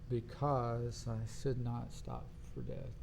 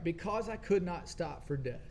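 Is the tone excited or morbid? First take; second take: morbid; excited. First: The line is read in a dark, gloomy tone. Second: The line is read in a bright, upbeat tone. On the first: The speaker calls it right. "I really should take a morbid tone with that" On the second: The speaker calls it wrong. "I shouldn't sound excited about the, the death thing"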